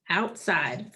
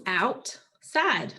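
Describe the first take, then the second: First: Said in the usual way. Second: "Outside" in two pieces, out, pause, side; split into syllables. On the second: Shown as a demonstration. Teacher answering what the two syllables are, "Outside" split apart. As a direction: separate "Outside" cleanly between out and side. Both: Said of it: "What are the two syllables".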